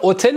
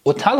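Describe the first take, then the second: First: "هتل" as otel, with e in the last syllable; e pronunciation. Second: "هتل" as otal, with open a; open a pronunciation. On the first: Teacher asking why not read so, "هتل" as otel. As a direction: say "هتل" as o-TEL. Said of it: "چرا هتل نخوندیم". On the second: Teacher giving students the correct reading, "هتل" as otal. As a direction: say "هتل" as o-TAL. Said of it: "هتل خوندیم". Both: Shown as a demonstration.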